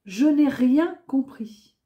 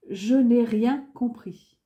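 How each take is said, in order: Both takes have the same delivery.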